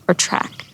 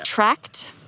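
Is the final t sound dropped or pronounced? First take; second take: dropped; pronounced. First: The final t sound is dropped. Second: The final t sound is pronounced. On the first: "I'm gonna say track" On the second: "Do you pronounce the T?"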